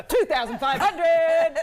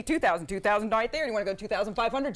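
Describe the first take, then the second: First: Loud, high, drawn-out bid call; auctioneer's big call. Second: Quick auctioneer bid-calling at speaking volume; rapid auctioneer talk. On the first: Auctioneer announcing Joey's bid to the room, loud drawn-out call. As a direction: belt out the winning bid, stretching each word. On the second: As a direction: run the bid through in auctioneer patter. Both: Shown as a demonstration. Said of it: "show you how to do it".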